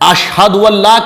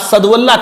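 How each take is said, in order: First: The first word has a clear 'sh' sound. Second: The first word has a plain 's' sound. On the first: The speaker calls it right. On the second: The speaker calls it wrong.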